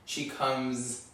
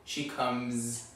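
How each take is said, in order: No difference in how they are said.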